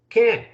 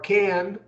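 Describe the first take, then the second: First: The pitch rises sharply on the word. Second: The pitch falls low on the word. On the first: "sharp rising tone" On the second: "low falling tone"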